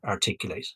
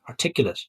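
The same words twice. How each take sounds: First: The final syllable sounds like 'late'. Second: The final syllable sounds like 'lit'. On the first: The speaker calls it wrong. "I pronounced that incorrectly" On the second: The speaker calls it right. "It's you can be articulate"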